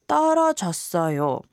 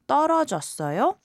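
First: The pitch falls at the end. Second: The pitch rises at the end. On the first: It states that the speaker failed. "When you drop the intonation at the end and say" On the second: It asks whether the listener failed. "asks 떨어졌어요?"

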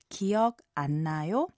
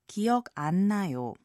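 First: It is said with a questioning intonation. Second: It is said with a statement intonation. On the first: The speaker politely asks whether someone remembers. "politely you would ask" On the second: The speaker politely says they do not remember. "the same exact words but with different intonations"

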